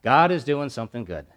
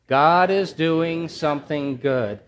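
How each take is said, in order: First: Said in the usual way. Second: Slow, drawn-out chant for the congregation to repeat; slow, emphatic congregational refrain; slow call and response. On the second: Shown as a demonstration. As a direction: lead the room through it slowly. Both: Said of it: "I want you to say it with me".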